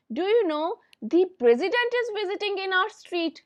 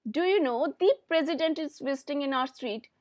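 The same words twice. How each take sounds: First: Eager emphatic news telling; emphasis on the president. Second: Said in the usual way. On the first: Shown as a demonstration. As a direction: punch "the president" with excitement. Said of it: "हमने emphasise किया president word के ऊपर". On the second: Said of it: "हमने emphasise किया".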